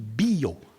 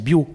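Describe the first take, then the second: First: The i vowel is long and accented. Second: The i vowel is short and unaccented. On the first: It means bow. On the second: It means life.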